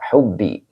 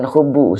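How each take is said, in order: First: The word ends with an i vowel. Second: The word ends with a u vowel. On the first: The word is joined to the next noun: love of. The speaker calls it right. "Ini dibaca hubbi menjadi mudhof ilaih" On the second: The word stands as a delayed subject: there is love. The speaker calls it wrong. "Bukan hubu Ustaz. Hubu bukannya dirofakan mubtada muakhir, tidak"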